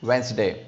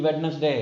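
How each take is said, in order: First: The d is silent in the word. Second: The d is sounded in the word. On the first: The speaker calls it right. "डी is silent" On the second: The speaker calls it wrong. "No, it can not be वेडनेसडे"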